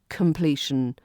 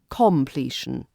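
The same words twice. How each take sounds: First: The first vowel is a weak schwa. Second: The first vowel is a full O sound. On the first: The speaker calls it right. "the O in completion changes into the schwa here" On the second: The speaker calls it wrong. "not completion"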